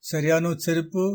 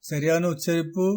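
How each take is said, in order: The two takes are said the same way.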